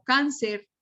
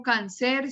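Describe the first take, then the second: First: "cáncer" stressed on CÁN, CÁN-cer; stress on first syllable. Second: "cáncer" wrongly stressed on the end, can-SER; wrong final stress. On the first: Teacher gives students the correction, "cáncer" stressed as CÁN-cer. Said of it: "sino cáncer". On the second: Teacher shows students the wrong way, "cáncer" stressed as can-SER. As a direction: move the stress of "cáncer" to the last syllable. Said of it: "no digo cáncer". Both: Shown as a demonstration.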